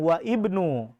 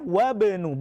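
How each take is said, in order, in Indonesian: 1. Huruf 'i' dibunyikan sebagai vokal tersendiri. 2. Huruf 'i' dihilangkan dan kedua kata menyambung. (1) "bukan wa ibnu" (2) "Ketika di tengah wabnu"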